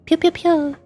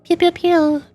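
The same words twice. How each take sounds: The two takes are said the same way.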